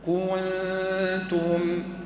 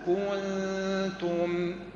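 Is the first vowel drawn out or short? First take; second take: short; short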